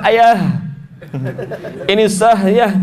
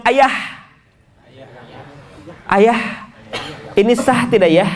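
First: "Ayah" and "sah" ending in a heavy, forced h; exaggerated big ha. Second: "Ayah" and "sah" ending in a light breathed h; light ha demo. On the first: Teacher mocking big ha in family talk, heavy h endings. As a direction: overdo the h closing "Ayah" and "sah". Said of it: "nggak mungkin pakai ha besar". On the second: Parent example for the small ha, lightly breathed h endings. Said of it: "kalau ha kecil". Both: Shown as a demonstration.

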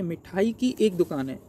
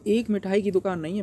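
First: Slow, with एक stressed after की and falling; teacher gives the right order slowly, leaning on एक; correct word order. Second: एक stressed at the start, rising as the faulty version; teacher reads the wrong order, leaning on एक; wrong word order. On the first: Teacher correcting the sentence for students, slow stress on एक. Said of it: "तो एक मिठाई की दुकान नहीं है". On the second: Teacher showing students the faulty order, एक stressed. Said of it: "अगर हम देखें सी वाला". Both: Shown as a demonstration.

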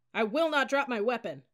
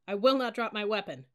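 First: High, loud cadet shout; louder recitation. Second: Loud but restrained cadet shout; dutiful recitation. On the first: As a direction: shout it out to satisfy the instructor. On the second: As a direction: recite it out firmly mid push-up. Cadet reciting, then told louder. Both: A narrator's reading.

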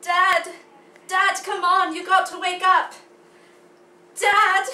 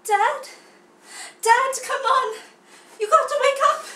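First: Put-on loud stage cry in an American accent; loud pleading in plain American accent. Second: High, loud young cub in a put-on accent; overacted accented cry to wake Dad. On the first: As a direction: call out urgently, American accent, no affected vowels. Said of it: "American accent with that". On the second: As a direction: plead loudly in an affected accent. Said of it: "a couple different accents in there".

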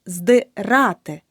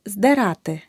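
First: Здирати slowly, with clear и in the first syllable; correct и vowel. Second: Здирати with е in the first syllable; mispronounced vowel. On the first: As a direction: say здирати as "zdy-RA-ty". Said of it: "Наголос на А". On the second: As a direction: say здирати wrongly as "zderaty". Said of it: "Помилка у слові". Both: Shown as a demonstration.

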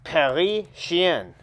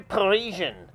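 First: "Parisien." said slowly the French way, nasal end; French pronunciation. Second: Said in the usual way. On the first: Shown as a demonstration. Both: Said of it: "I mean".

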